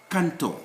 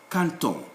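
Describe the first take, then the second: No difference in how they are said.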